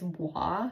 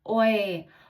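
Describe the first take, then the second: First: The name is said like 'wa'. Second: The name is said like 'oi'. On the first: The name as a store employee said it. "I think she said its name, it's wa" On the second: The speaker's own guess at the name. "Oi is what I said"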